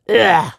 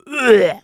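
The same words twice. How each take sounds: First: Vocal grunt. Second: High loud grunt like about to vomit; retching grunt. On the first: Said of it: "There's a part where he goes". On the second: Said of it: "it's more like ... Like he's, like, gonna vomit". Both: Retold or imitated.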